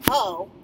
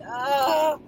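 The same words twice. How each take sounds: First: It is said short and flat. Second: It is drawn out with emotion.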